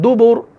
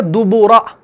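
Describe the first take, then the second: First: दुबुर ending on a thick r, no vowel; heavy r at the stop. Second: दुबुरा with the final a sounded; written form with final vowel. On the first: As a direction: stop on दुबुर with a full-mouthed r. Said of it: "उस रॉ को हम मोटा पढ़ते हैं". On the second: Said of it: "लेकिन हम पढ़ते हैं दुबुर". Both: Shown as a demonstration.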